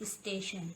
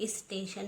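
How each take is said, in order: Both takes have the same delivery.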